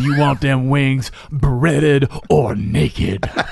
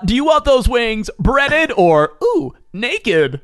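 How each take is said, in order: First: A gruff, laid-back put-on character voice. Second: A bright, polished put-on character voice. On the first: This is the old owl mascot talking. "Old owl" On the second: This is the new owl mascot talking. "now do the other one"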